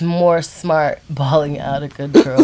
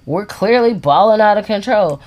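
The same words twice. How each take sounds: First: Slow, laughing delivery of more smart balling; amused phrase. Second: CLEARLY said with weight and a falling tune; emphatic repeat. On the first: Real, not acted. Wife says the phrase her husband liked, laughing. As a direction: let the laugh ride through the words. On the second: Shown as a demonstration. Husband repeats his phrase to make the point, stressing clearly. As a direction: lean on CLEARLY, then land it. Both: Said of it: "I like the way you said it".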